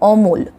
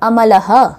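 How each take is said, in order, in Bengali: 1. প্রথম স্বরধ্বনি ওকারের মতো, আর শব্দটি ব্যঞ্জনে শেষ হয়। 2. প্রথম স্বরধ্বনি খোলা, আর শেষের স্বরধ্বনিও উচ্চারিত হয়। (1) "বাংলায়" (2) "সংস্কৃতে এই নামটাই যদি আমরা বলি তাহলে আমরা বলবো"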